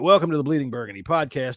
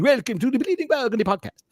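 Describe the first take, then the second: First: It is said in his normal accent. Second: It is said in a mock Spanish accent.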